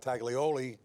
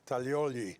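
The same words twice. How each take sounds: First: The name is said with an American accent. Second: The name is said with an Italian accent. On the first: "I was gonna say you know" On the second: "I went automatically into my Italian accent"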